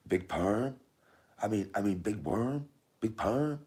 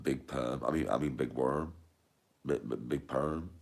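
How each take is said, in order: First: High questioning put-on voice; playful high-pitched film quote; high film-line impression. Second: Said in the usual way. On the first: Repeats film line in character.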